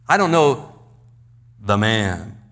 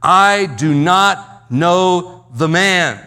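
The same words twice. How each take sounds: First: Said in the usual way. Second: Slow, loud outburst of temper; loud, angry denial. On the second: Retold or imitated. Peter in a fit of temper denying the man, loud and angry. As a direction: hurl each word out loudly, drawn out. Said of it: "in a fit of temper, he says loudly".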